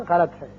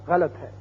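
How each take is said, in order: Both takes have the same delivery.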